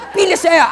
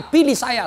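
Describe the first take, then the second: First: High, loud candidate's plea; campaign shout. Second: Said in the usual way. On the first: Retold or imitated. Candidate begging voters for support, loud campaign shout. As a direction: holler it like a candidate at a rally.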